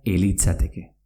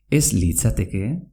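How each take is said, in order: First: "elitzateke" starting straight e-li; Z swallowed before L. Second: Said in the usual way. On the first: Shown as a demonstration. Teacher shows ez litzateke merging, Z dropped. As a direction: say "elitzateke" as one word, no z before l. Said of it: "te comes la Z". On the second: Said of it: "se pronuncia elitzateke".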